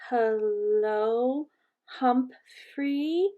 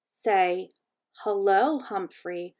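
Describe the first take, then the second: First: Drawn-out words, each rising questioningly; hesitant learner. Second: Gentle teaching, with pauses between words; gentle instruction. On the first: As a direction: sound it out slowly, unsure of each word. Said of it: "Missus Nasari said". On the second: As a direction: model the phrase for a learner. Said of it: "Saya gently instructed her mother". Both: A narrator's reading.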